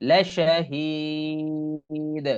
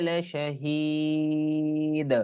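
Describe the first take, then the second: The two takes are said the same way.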